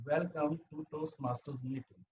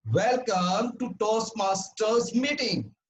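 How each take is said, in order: First: Soft, small-voiced welcome; low volume demo. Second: Big, slow, high-pitched welcome; loud volume demo. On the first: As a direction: say it quietly, holding the volume well down. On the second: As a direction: project it loudly, high and drawn out. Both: Shown as a demonstration. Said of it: "how loud we speak".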